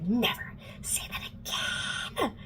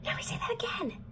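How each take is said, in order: First: Slow, drawn-out threatening whisper; furious whisper. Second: Quicker, higher hissed whisper; furious whisper. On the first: Alec slams Clary against the wall, slow furious whisper. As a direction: whisper it slowly, as a menacing warning. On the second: Alec repeats his warning to Clary, sharper furious whisper. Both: Retold or imitated. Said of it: "like, really mad and grabs her".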